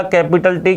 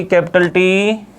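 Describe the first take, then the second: First: Said in the usual way. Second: capital टी drawn out slowly, each word stressed, rising at the end; slow emphatic repeat. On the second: Shown as a demonstration. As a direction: spell out capital टी slowly for the class. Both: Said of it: "तो ये अपन ने क्या लिख दिया?".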